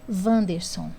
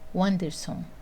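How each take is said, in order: First: The name begins with a V sound. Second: The name begins with a U sound. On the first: "o W tem som de V também" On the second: "o som aqui, né, é de U"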